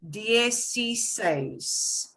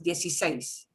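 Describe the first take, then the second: First: It is said slowly. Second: It is said fast.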